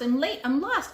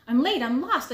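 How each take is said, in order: First: Yelling. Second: High loud cry of late and lost; yelling. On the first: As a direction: keep calling, high. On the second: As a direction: call out in a panic. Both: A narrator's reading. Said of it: "She was yelling".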